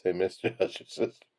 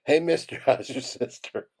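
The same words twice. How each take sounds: First: Said in the usual way. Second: Higher-pitched calling out, breaking into laughter; mock yell. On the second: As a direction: call out as the little cactus, laughing midway. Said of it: "the little cacti yells out".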